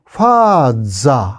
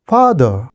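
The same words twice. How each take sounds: First: It is said with a Japanese accent. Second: It is said with an English-like accent.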